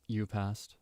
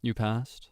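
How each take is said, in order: First: Soft, unsettling praise from a teacher; hushed creepy teacher line; softer creepy teacher. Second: Said in the usual way. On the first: Acted. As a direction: say it softly, a bit too intimate. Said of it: "Kinda scary". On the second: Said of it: "Like that kind of vibe".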